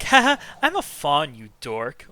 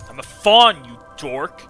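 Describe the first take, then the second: First: It sounds playful and flirty. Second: It sounds offended and testy.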